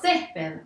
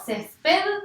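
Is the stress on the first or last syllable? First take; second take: first; last. First: The stress is on the first syllable. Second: The stress is on the last syllable. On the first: The speaker calls it right. "la fuerza va a estar en la penúltima sílaba" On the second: The speaker calls it wrong. "¿Yo tengo la fuerza en la última sílaba? No"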